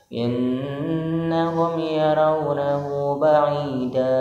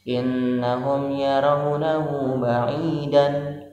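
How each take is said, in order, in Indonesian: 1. Kata terakhir berakhir dengan vokal a panjang. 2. Kata terakhir berakhir dengan bunyi n.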